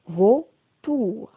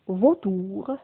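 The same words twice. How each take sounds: First: "vautour" split into two syllables, vau, tour; découpé en syllabes. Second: Said in the usual way. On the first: Shown as a demonstration. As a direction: say "vautour" syllable by syllable with a clear gap. (« vautour » dit en deux syllabes séparées) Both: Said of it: "dans la première syllabe".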